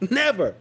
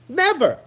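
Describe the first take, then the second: First: Said in the usual way. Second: "Never" shouted high and loud, falling hard; a louder, higher "Never" punched out; emphatic never. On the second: Real, not acted.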